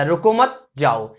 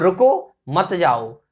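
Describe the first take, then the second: First: रुको मत together, break, then जाओ, slow and low; slow demo, holding off before जाओ; pause after मत. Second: रुको, break, then मत जाओ, slow and low; slow demo, stopping after रुको; pause after रुको. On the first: (रुको मत के बाद ठहराव, नीचे सुर में जाओ) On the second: (रुको के बाद रुककर, नीचे सुर में मत जाओ) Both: Shown as a demonstration. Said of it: "गलत जगह लगा दिया तो अर्थ का अनर्थ".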